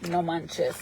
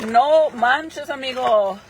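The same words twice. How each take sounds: First: Said in the usual way. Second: Louder, higher No manches; excited exclamation. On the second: Real, not acted. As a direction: burst out No manches, amigo.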